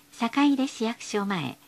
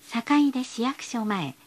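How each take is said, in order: Both takes have the same delivery.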